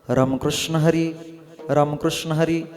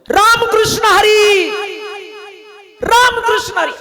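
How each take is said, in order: First: It is said in a low, deep voice. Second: It is said at the highest, loudest pitch.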